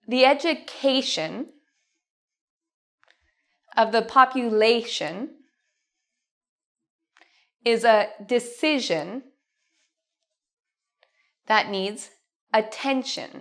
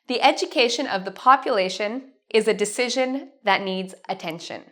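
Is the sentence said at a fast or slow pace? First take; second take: slow; fast. First: The sentence is spoken at a slower pace. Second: The sentence is spoken at a fast pace. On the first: "repeat after me" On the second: "let's say this quickly now"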